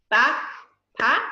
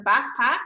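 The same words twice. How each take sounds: First: BACKPACK in two separate beats, BACK, pause, PACK; split into syllables. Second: Said in the usual way. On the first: Shown as a demonstration. Teacher demonstrating syllables to class, BACKPACK split in two beats. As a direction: break BACKPACK cleanly between BACK and PACK. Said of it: "That's two syllables". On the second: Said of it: "you're just going to listen".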